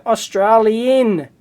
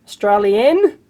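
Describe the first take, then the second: First: "Australian" stretched slowly with a broad AH in the middle, falling at the end; drawn-out Australian. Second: "Australian" with the first vowel dropped and an AY in the middle, rising; Aussie-style Australian. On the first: Reading a viewer's mail aloud, "Australian" drawn out with a long AH. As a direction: say "Australian" slowly as os-TRAH-lee-un, letting it fall. Reads out word, says it two ways. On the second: Repeating the mail's word to himself, "Australian" as rising STRAY-lee-un. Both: Shown as a demonstration.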